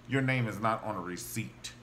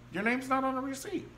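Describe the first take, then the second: First: Said in the usual way. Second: Not pushed higher with a rising tune; stress on not. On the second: Shown as a demonstration. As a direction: lift and lean on not. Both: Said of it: "I know beyond a shadow of a doubt".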